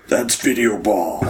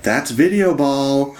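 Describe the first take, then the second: First: Slow, put-on superhero announcer voice; stretched-out imitation of a game announcer; Batman. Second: High, drawn-out game announcer voice; big mock announcer call, pitched up and stretched; announcer shout. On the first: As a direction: draw it out in a mock superhero voice. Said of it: "Like Batman". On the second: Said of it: "they'll just shout things like".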